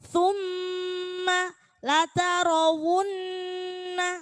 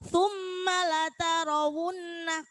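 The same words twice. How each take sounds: First: The nasal sound is held for three beats. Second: The nasal sound is cut short. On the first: The speaker calls it right. "tiga ketukan" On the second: The speaker calls it wrong.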